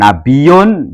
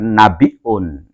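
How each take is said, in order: First: It is said without a glottal stop. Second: It is said with a glottal stop. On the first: A noble, honoured person. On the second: One who conveys news.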